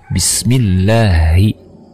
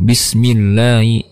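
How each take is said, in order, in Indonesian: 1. Suku kata terakhir terdengar oral, bukan sengau. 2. Suku kata terakhir terdengar sengau. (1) "Harusnya Bismillahi" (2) "masuk ke hidung"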